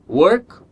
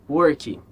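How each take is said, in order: First: It ends cleanly on the final consonant. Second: It ends with an added vowel sound. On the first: The speaker calls it right. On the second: The speaker calls it wrong.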